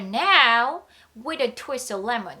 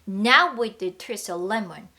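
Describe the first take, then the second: First: There is a pause after now. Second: Now runs straight into with. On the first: "이렇게 쉬셔도 괜찮습니다" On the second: "이렇게 이어줄 수 있는 거예요"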